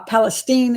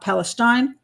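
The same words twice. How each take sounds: First: It is pronounced the local way for the Texas town. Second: It is pronounced like the Middle East region's name. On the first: It names the town in Texas. The speaker calls it right. "how you pronounce uh, the Texas town" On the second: It names the region in the Middle East. The speaker calls it wrong. "it's not Palestine. That's in that's in Israel area or the Middle East"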